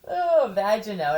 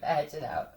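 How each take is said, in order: First: Vagino stretched out louder with relish; relishing the name. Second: Said in the usual way. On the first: Shown as a demonstration. Savoring her joke name for a mobster, relishing. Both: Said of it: "Vagino sounds like a".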